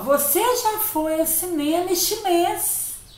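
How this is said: It is said as a surprised exclamation.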